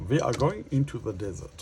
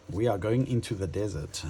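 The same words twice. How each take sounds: First: Higher mock German accent, words clipped hard; self-mocking German accent line; bad Dutch German accent. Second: Said in the usual way. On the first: Shown as a demonstration. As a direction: put on a clumsy Dutch-German accent for fun. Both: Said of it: "that's my really bad Dutch German accent".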